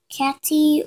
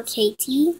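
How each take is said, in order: First: "Katy" said with a as in cat; short-a first syllable. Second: "Katie" said with ay as in Kate; long-a first syllable. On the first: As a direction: say "Katy" as KAT-ee. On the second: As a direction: say "Katie" as KAY-tee. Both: Shown as a demonstration. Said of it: "not sure as yet".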